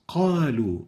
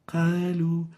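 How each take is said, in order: First: The q sound is strong and clear. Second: The q sound is weak and unclear. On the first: The speaker calls it right. "give the qaf its apparent characteristics" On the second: The speaker calls it wrong.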